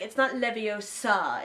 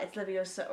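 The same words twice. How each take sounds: First: "Leviosa" with the weight dragged onto the final "sa"; slow mock correction, "Leviosa" said as levio-SA; wrong stress on Leviosa. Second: "Leviosa" with the weight on the "o"; right stress on Leviosa. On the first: Imitating Hermione's correction of the spell, "Leviosa" wrongly stressed on the last syllable. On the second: Retold or imitated. Imitating Hermione giving the correct spell, "Leviosa" stressed on the "o". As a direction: correct it to levi-O-sa, final "sa" let drop. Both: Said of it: "Hermione's like".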